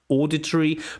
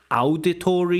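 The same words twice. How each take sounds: First: It is said with a native English pronunciation. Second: It is said with a Russian-like pronunciation. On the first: The speaker calls it right. "instead of auditory" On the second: The speaker calls it wrong. "you mispronounced just a few words, like auditory, you said"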